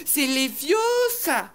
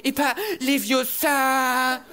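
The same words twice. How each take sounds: First: "les vieux ça" said with the rise on "vieux"; correcting: les VIEUX ça; correct spell. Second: "les vieux ça" slow, the weight on "les"; the wrong way: LES vieux ça; wrong spell. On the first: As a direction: stress "vieux" high and lingering. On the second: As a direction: drag out "les vieux ça", stressing "les". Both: Acted. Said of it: "Miss Je sais tout ... qui fait".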